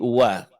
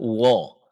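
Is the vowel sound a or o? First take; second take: a; o. First: The vowel sounds like a. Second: The vowel sounds like o. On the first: The speaker calls it right. "tapi wa" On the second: The speaker calls it wrong. "Jangan berubah menjadi O. Jangan wo"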